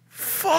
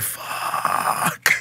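First: Hammed-up freak-out, held on one high note; retold yell. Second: Long, breathy, whispered sound effect; like air leaking out in awe; soft drawn-out curse. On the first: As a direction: stretch the word into a thin panicked cry. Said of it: "I just yell out". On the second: Retold or imitated. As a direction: exhale the word slowly without voice. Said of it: "I let out a soft fuck".

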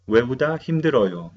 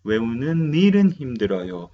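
First: Wrong grammar demo. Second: Correct grammar demo. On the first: Teacher shows students the incorrect sentence, as a plain demo. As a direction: model the wrong form 외우다 힘들어요 as a learner's mistake. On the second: Teacher gives students the correct version, as a clear model. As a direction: model the right form 외우는 일은 힘들어요 clearly. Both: Shown as a demonstration. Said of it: "No, no se dice así".

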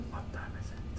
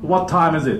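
First: Barely audible whisper; tiny, unprojected voice; too quiet to hear. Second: Firm, full-voiced English question; big clear voice, falling at the end; projected so all hear. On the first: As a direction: whisper the English question. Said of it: "でも全然ダメです". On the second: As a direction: project it to the back of the room. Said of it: "って言わないと". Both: Shown as a demonstration.

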